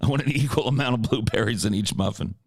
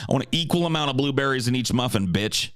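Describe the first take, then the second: First: Plain-voiced retake of the muffin line; the same line repeated flatly; Ace Rothstein imitation. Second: Ace Rothstein. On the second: Retold or imitated. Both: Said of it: "Ace Rothstein's blueberry muffin".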